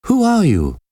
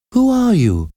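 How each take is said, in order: First: High, sharp exclaimed question; exclaiming. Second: High, frightened question from a prisoner; trembling voice. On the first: Prisoner demands to know who took her hand, exclaiming. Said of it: "Esmeralda exclaimed". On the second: Prisoner questions the monk before her, trembling. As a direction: ask it very high, with a touch of trembling. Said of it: "asked in a trembling voice". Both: A narrator's reading.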